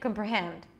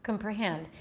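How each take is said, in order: Both takes have the same delivery.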